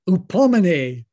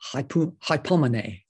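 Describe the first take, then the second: First: The word is said in a Greek-style pronunciation. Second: The word is said in an English-style pronunciation. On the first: "out booms Strong's G5281" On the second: "you tend to anglicize it. So I kind of read that as hypomene"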